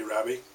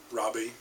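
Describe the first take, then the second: First: "Rabbie" said the Scottish way, with a short flat 'a' in the first syllable; Scottish pronunciation. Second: Said in the usual way. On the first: Shown as a demonstration. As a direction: say "Rabbie" as a Scot would, first vowel as in "cab". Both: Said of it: "pronounced with a Scottish accent".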